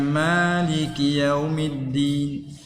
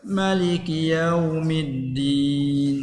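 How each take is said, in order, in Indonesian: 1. Vokal setelah M pertama panjang. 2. Vokal setelah M pertama pendek. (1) "ni kiraat kita ni baca yang ada alif ni" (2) "baca dengan tak ada alif"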